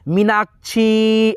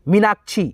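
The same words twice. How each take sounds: First: The final vowel is stretched out long. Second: The final vowel is said short and plain. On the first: "यही खींच करके होता मीनाक्षी ऐसे होता" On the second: "यहाँ पे सिंपल उच्चारण है छी का"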